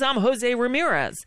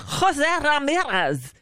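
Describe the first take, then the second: First: The name is said with English-style pronunciation. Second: The name is said with Spanish-style pronunciation. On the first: This is how the owner says his own name. The speaker calls it right. "somebody who pronounces it like" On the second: Someone else imposes a foreign pronunciation on the name. The speaker calls it wrong. "Jose Diaz-Balart has to Hispanicize everybody's name"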